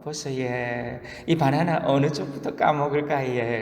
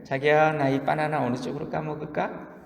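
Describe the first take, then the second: First: Copycat coaxing in Gyeongsang dialect; lightly voiced jealous wife with a Gyeongsang lilt. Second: Put-on sweet Seoul-accented question, lilting up at the end; Seoul wife. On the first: Jealous Gyeongsang wife copying the Seoul couple, Gyeongsang accent. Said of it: "경상도 여자가 보고 질투가 나서". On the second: Seoul wife asking her darling about a banana, coaxing Seoul accent. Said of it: "서울 커플".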